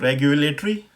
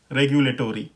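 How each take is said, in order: First: रेगुलेटरी as reg-yu-lay-tree, rising; short tree ending on रेगुलेटरी; British pronunciation. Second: रेगुलेटरी as reg-yu-lay-tor-ee, falling; American pronunciation. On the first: Teacher compares both takes, British pronunciation. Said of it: "ट्री करके use हो रहा". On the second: Teacher compares both takes, American pronunciation. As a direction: open out tory in रेगुलेटरी. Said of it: "American pronunciation में". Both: Shown as a demonstration.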